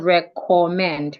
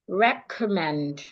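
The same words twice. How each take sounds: First: The second syllable has a full vowel. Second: The second syllable has a reduced schwa vowel. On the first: The speaker calls it wrong. "Instead of" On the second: The speaker calls it right. "the O in the second syllable makes the sure"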